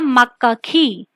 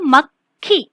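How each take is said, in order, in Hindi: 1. पहला व्यंजन अपनी स्वर-मात्रा के साथ बोला जाता है। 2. पहला व्यंजन बिना स्वर के बोला जाता है। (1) "अगर हम इसे पूरे व्यंजन के साथ पढ़ेंगे" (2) "इसका उच्चारण संयुक्ताक्षर में है"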